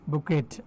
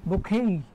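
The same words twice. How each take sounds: First: বুকেট with the final t sounded; spelling pronunciation. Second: বুকেই with a silent t, ending "-kay"; UK pronunciation. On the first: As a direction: say বুকেট ending in a clear "-et". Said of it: "ফুলের তোড়ার ইংরেজি হচ্ছে বুকেট". (বুকেট, শেষে ট উচ্চারণ করে) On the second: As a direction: stretch the open final "ay" of বুকেই. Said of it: "UK এর উচ্চারণ হচ্ছে". (বুকেই, ইউকে উচ্চারণে, ট ছাড়া) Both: Shown as a demonstration.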